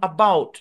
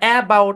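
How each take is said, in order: First: The first vowel is a weak schwa sound. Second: The first vowel is a full, clear vowel. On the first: The speaker calls it right. "ধরে নিন এখানেও কি স sound apply হয়েছে" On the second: The speaker calls it wrong. "এরকম না"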